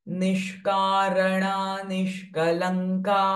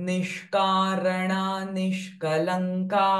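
Both takes have the same delivery.

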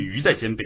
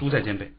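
First: The first syllable is pronounced yú. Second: The first syllable is pronounced shù. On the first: The speaker calls it wrong. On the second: The speaker calls it right.

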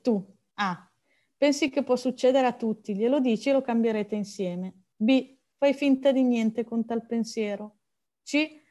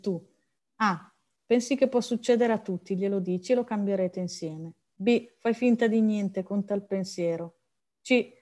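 Both takes have the same delivery.

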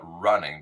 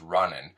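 First: The ending is a full -ing sound. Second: The ending is shortened to an -in sound.

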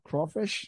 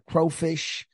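First: The first syllable rhymes with 'crawl'. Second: The first syllable rhymes with 'crow'. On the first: The speaker calls it right. "I think it's a crawl" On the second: The speaker calls it wrong. "I don't think it's a crow"

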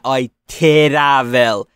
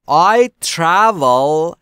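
First: A short vowel is inserted between t and r. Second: The t and r are joined with no vowel. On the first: The speaker calls it wrong. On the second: The speaker calls it right.

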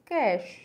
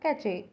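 First: The word has one syllable. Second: The word has two syllables. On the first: The speaker calls it right. "It's कैश" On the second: The speaker calls it wrong. "But it's not कैचे"

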